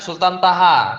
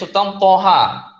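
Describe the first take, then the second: First: The first syllable is a light, plain 'ta'. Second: The first syllable is a heavy 'to'. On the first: This is the usual Indonesian reading. The speaker calls it wrong. "orang bahasa Indonesia sering bacanya Sultan Taha" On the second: This is the original Arabic reading. The speaker calls it right. "yang betul itu sebenarnya Sultan Poha"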